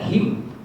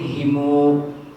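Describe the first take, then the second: First: The word ends with an i vowel before m. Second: The word has i, then m, then u. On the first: "baca him" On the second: "Ada yang himu"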